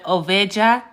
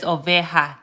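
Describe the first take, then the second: First: "oveja" with an English J, oh-VAY-jah; wrong J sound. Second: "oveja" with an H sound, oh-VAY-hah; Spanish "oveja", the j breathed as h. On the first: Teacher shows the mistake to avoid, "oveja" with English J. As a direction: mispronounce "oveja" using a hard English juh. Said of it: "So instead of oveja". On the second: Teacher gives the correct word, "oveja" with J as H. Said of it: "pronounced like an H". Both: Shown as a demonstration.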